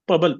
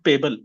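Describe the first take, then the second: First: The syllable has a short, reduced vowel. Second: The syllable has a full 'ay' vowel. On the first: The speaker calls it right. "Pubble, pubble, not pable" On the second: The speaker calls it wrong. "not pable"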